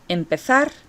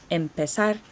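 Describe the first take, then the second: First: The z is said like English th. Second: The z is said like a soft s. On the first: "I use the thetheo, right, in this Castilian Spanish accent" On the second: "a Mexican accent or a Latin American accent ... as a soft S"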